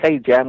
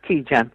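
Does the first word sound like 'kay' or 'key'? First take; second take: kay; key. First: The first word sounds like the letter kay. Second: The first word sounds like the word key. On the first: The speaker calls it wrong. "instead of pronounce it as K jam" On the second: The speaker calls it right. "we pronounce it as key jam"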